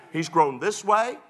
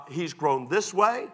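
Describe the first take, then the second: No difference in how they are said.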